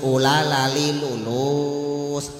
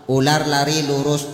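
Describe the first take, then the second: First: The r sounds are replaced with l sounds. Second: The words are said with clear r sounds.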